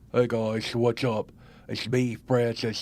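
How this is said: The voice is very low.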